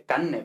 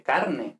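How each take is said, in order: First: Carne as canne, r turned into a long n; relaxed Andalusian. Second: Carne slowly with its r sounded; standard carne. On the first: Teacher imitates Andalusian speech, carne as canne. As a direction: drop the r in carne and double the n. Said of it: "en pronunciación relajada". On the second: Teacher contrasts with Andalusian, carne with full r. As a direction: pronounce the r in carne clearly. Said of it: "no dice carne". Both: Shown as a demonstration.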